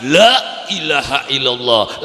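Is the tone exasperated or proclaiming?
exasperated. It is said in a frustrated, exasperated tone. Someone is fed up with trouble at home. "ning wong wadon lakine beli teka-teka anake ngamuk terus ngucap"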